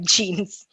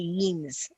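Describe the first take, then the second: First: The word begins with a J sound. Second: The word begins with a Y sound. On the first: The speaker calls it right. "they just like left it like jeans" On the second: The speaker calls it wrong. "They don't say yeens"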